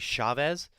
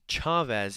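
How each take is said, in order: First: The name does not start with a 'ch' sound. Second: The name starts with a 'ch' sound. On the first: This is how the spelling suggests it is said. The speaker calls it wrong. "it's spelled like you would say Chavez" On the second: This is how the player's own name is said. The speaker calls it right. "say it ch, like you'd say the cha-cha"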